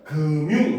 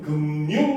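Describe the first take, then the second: First: The final consonant simply links to the vowel. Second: An extra n sound is inserted mid-word.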